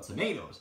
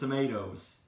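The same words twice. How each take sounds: First: The word is said in a British accent. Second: The word is said in an American accent. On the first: The speaker calls it right. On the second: The speaker calls it wrong.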